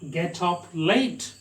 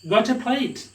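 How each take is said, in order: First: The words are said separately. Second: The consonants are linked into the following vowels.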